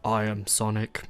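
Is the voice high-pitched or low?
low. It is said in a low voice.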